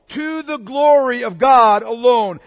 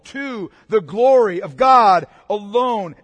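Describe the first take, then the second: First: It is said at a faster pace. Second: It is said at a slower pace.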